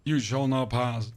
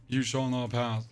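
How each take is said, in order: First: A hammed-up wizard forbidding passage; mock wizard decree. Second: Said in the usual way. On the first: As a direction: boom it out slowly like a wizard blocking a bridge. Quoting the famous wizard line.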